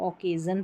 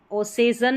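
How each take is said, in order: First: ओकेजन with a hard k in the middle; k sound. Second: ओसेजन with an s in the middle, marked wrong; wrong s sound. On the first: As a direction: say ओकेजन with a clear k. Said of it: "ओकेजन पढ़ रहे हैं". (सही उच्चारण ओकेजन) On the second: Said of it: "ओसेजन नहीं पढ़ते इसको". (गलत उच्चारण ओसेजन) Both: Shown as a demonstration.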